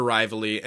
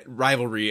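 First: "rivalry" with its second R dropped, like "RY-vuh-lee"; slurred slip. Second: Said in the usual way. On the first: Real, not acted. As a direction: stumble on "rivalry", saying "rival-ee". Stumbles, then corrects the word.

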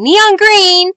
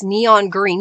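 First: High, loud burst of excitement; excited exclamation. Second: Said in the usual way. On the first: Real, not acted. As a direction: call it out high and loud, stretching the last word. Exclaims the colour she named.

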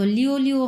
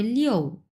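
First: লিও, লিও without the sharp fall; wrong tone demo. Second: Slow model লিও with a decisive fall; correct fourth tone. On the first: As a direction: say লিও evenly, as an ordinary word. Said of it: "হবে না". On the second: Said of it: "যেহেতু চার number tone". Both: Shown as a demonstration.

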